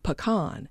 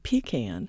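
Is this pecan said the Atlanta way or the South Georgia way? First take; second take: Atlanta; South Georgia. First: It is said the big-city Atlanta way. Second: It is said the rural South Georgia way. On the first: The speaker is from the big city. "my mother, being from the big city, said pecan" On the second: The speaker is from rural South Georgia. "my father, being from South Georgia, said pecan"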